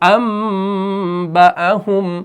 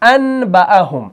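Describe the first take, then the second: First: The n is said as an m sound. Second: A clear n sound comes before the b. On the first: "लेकिन हम पढ़ते हैं अम" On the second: "असल में है अनबअहुम"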